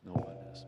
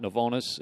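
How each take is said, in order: First: Novo, Nesis split in two parts, NO-vo NEH-sis; Novo, Nesis with the sound of Genesis; correct pronunciation. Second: Novonus said as no-VO-nus, wrong name; wrong pronunciation. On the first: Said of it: "Nesis, like Genesis". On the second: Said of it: "it is not Novonus". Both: Shown as a demonstration.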